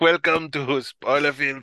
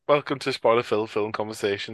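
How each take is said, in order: First: It is said in a put-on comic voice. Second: It is said in his normal voice.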